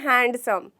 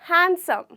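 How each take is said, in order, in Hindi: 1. d ध्वनि स्पष्ट रूप से बोली जाती है। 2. d ध्वनि को साइलेंट छोड़ दिया जाता है। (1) "ना कि हैंडसम, जी नहीं, वो बहुत गलत साउंड करता है" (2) "यहाँ पे हमारा लेटर डी जो कि है वो साइलेंट होता है"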